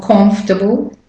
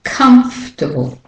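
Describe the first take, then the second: First: Comfortable mispronounced as KOMF-tuh-bl; comfortable with "o" as in "hot", rising; wrong "o" vowel. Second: Comfortable said KUMF-tuh-bl, higher first syllable; comfortable with first vowel like "cup", falling; short "uh" vowel. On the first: Teacher shows the mistake, comfortable as KOMF-tuh-bl. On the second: Teacher corrects learners, comfortable as KUMF-tuh-bl. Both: Shown as a demonstration. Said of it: "It's not comfortable".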